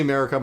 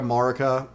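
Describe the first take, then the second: First: "Marika" said MARE-ih-kuh; MARE pronunciation. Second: "Marika" said MAR-ih-kuh; official pronunciation. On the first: Streamer showing the way they say the name, MARE pronunciation. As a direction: open "Marika" with a MARE vowel. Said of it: "I say Marika". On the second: Streamer contrasting the official version of the name, MAR pronunciation. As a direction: open "Marika" with an open MAR vowel. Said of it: "I think it's officially Marika". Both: Shown as a demonstration.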